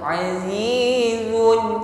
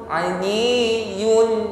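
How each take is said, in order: The two takes are said the same way.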